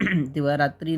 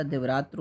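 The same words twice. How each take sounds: First: दिवारात्रि ending in "tri"; wrong compound form. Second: दिवरात्र with short "va", ending "tr"; correct compound form. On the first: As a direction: say दिवारात्रि with a final i. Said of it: "नहीं होता". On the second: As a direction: drop the final i of दिवरात्र. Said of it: "होता है". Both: Shown as a demonstration.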